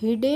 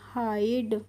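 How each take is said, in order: First: The vowel is a short 'i' sound. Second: The vowel is a long 'eye' sound. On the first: The speaker calls it wrong. "हिडे नहीं पढ़ते हैं" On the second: The speaker calls it right. "इसको पढ़ते हैं हाइड"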